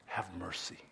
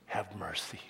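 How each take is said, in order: First: Very soft echo of the words; quiet echo; soft repeat. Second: Whispered scripture words; hushed reverent whisper. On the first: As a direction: say it again, barely there. Repeats the phrase softly. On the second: Reading the verse in a whisper. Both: Acted.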